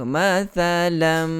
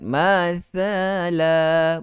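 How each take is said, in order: First: The word ends with a nasal m sound. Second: The word ends on a vowel and stops. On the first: The reader runs on without pausing. The speaker calls it wrong. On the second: The reader pauses here. The speaker calls it right.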